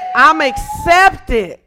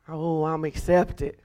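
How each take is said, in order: First: It is said with excitement and joy. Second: It is said flatly, without excitement.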